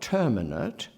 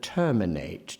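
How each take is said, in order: First: The final syllable is reduced, like in indeterminate. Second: The final syllable is full, with an open vowel. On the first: The speaker calls it wrong. "Not terminate, as in indeterminate" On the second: The speaker calls it right. "holds open the vowel"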